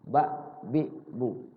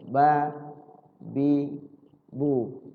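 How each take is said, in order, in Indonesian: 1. Vokalnya pendek dan terpotong. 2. Vokalnya diulur panjang. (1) "dibaca pendek" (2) "dieja, diayun"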